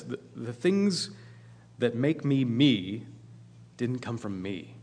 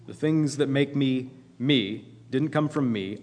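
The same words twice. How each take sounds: First: Slow and deliberate, each phrase set apart; slow, weighty first reading. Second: Said in the usual way. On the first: Shown as a demonstration. Preacher to congregation, quoting the book, slow and deliberate. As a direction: let the quote land slowly, word by word.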